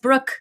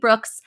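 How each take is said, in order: First: The name ends without an s sound. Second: The name ends with an s sound. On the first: The speaker calls it right. "It is just Brooke, no S" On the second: The speaker calls it wrong. "I mispronounced her last name"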